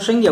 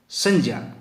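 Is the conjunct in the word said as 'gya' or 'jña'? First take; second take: gya; jña. First: The conjunct sounds like a 'gya' cluster. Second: The conjunct sounds like 'j' plus a palatal nasal. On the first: The speaker calls it wrong. "जो उच्चारण की दृष्टि से अशुद्ध माना जाता है" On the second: The speaker calls it right. "इसका सही उच्चारण होता है संज्ञा"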